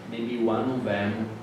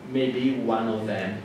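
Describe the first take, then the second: No difference in how they are said.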